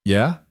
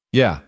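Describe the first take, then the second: First: Yeah? with a rising tune; questioning yeah. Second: Yeah. falling, with a smile; smiling yeah. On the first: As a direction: ask Yeah? lifting at the end. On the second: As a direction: answer Yeah. settled and falling. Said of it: "He could hear the smile". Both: A narrator's reading.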